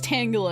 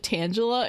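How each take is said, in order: First: The first part sounds like the word tangled. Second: The first part does not sound like tangled. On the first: This is the accepted form of the name. "It's Tangela because it's tangled" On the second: This is how it was said in childhood. "as a child, I pronounced it Tangela"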